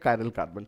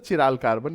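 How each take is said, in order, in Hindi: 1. यह शब्द k की आवाज़ से शुरू होता है। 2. यह शब्द ch की आवाज़ से शुरू होता है। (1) "it's a कायरल carbon" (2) "fun में हम इसको सर चिराल कार्बन भी कहेंगे"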